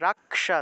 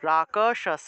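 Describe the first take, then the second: First: The k is clipped, with no vowel after it. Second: The k is said fully, with a vowel after it. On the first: The letter carries a hasanta mark. "কটা উজ্জ থাকবে" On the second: The letter has no hasanta mark. "হসন্ত না থাকলে রাকশস এইভাবে উচ্চারণ করতাম"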